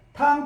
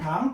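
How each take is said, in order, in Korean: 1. 음 높이가 높고 평평하게 유지됩니다. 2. 음 높이가 중간에서 높게 올라갑니다. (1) "탕 일성으로 해야 돼요" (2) "당이에요. 이성이에요"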